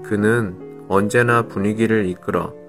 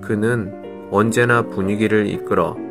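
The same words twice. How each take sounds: No difference in how they are said.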